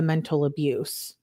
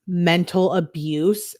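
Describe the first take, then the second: First: Said in the usual way. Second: MENTAL ABUSE drawn out slowly, rising in disbelief; incredulous all-caps question. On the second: Retold or imitated. Girlfriend throwing "Mental abuse" back at boyfriend, slow incredulous question. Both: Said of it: "She says in caps".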